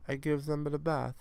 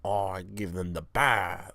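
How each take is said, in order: First: Put-on French accent slipping into Italian; pitched-up, botched French accent; attempted French accent. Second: Slow second stab at French; drawn-out, badly faked French accent; attempted French accent. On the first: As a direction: try a French accent, badly. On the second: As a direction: drag it out in botched French. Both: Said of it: "I could do a French accent".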